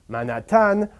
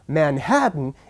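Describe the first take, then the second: First: The stress falls on the last syllable. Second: The stress falls before the last syllable. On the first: The speaker calls it wrong. "where the rhythm is stressed on the last syllable" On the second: The speaker calls it right. "put the stress in the right place"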